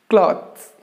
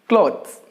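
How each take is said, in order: Both takes have the same delivery.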